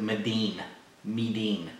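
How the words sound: It is said with a d-like tapped sound. "the Asians pronounce it Medin"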